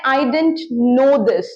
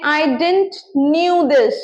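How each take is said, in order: First: "I didn't know this" read very slowly; slow, landing on "know"; modelling the fix; correct example. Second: "I didn't knew this" read very slowly; drawn out, lingering on "knew"; showing the error; wrong example. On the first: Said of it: "verb का first form बोला". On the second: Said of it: "बिल्कुल गलत". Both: Shown as a demonstration.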